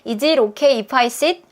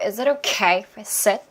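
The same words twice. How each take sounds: First: Every word gets roughly equal stress. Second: Only okay and sit are stressed. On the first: The speaker calls it wrong. "아니고" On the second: The speaker calls it right. "여기서 중요한 건 okay, sit"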